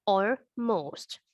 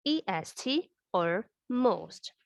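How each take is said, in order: First: Said in the usual way. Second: E S T or most, letter by letter and slow; slow, spelled out. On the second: Shown as a demonstration. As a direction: spell E S T slowly for the class.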